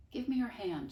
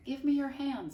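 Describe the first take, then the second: First: Said in the usual way. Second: High, louder repeated request; repeating the request more firmly; firmer repeat. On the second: Acted. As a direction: say it again, insisting. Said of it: "said Flora again".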